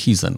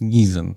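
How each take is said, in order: First: The name begins with an H sound. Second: The name begins with a G sound. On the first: This is how the Dutch side pronounces the name. "od niej od pierwsza słyszałem w ogóle, że się mówi Hizen" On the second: This is the plain everyday way the name is said. "tylko że to jest Gizen, tak po prostu"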